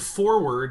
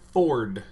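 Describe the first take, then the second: First: The word is said with two syllables. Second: The word is squeezed into one syllable. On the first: "instead of forward" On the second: "just say Ford. It's actually how it's pronounced in Kansas"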